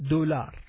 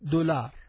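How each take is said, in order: First: The word is pronounced the Arabic way. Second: The same.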